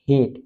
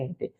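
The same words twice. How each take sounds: First: हेट as one syllable, final e dropped; correct reading. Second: हेटे with the final e voiced, two syllables he-te; wrong reading. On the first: Teacher gives pupils the right reading, हेट clipped to one syllable. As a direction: say हेट short, silent e left off. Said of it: "ई को हम silent मान के उसको छोड़ देंगे". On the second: Teacher shows pupils the mistaken reading, हेटे said softly. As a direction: read हेटे as the silent e were sounded. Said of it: "तो ऐसे नहीं पढ़ते हैं". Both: Shown as a demonstration.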